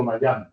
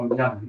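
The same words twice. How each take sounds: First: Miami said the English way, my-AM-ee. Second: Miami said the Spanish way, mee-AH-mee, each letter as written. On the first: Professor showing students the way he never says it, Miami as in English. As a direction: Miami anglicized to Mayami, with the gliding first vowel. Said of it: "nunca digo Miami". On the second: Professor showing students his own way of saying it, Miami in Spanish. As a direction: Miami with a plain Spanish i and a, no English glide. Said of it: "Yo siempre digo Miami". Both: Shown as a demonstration.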